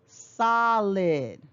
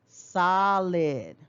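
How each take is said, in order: Both takes have the same delivery.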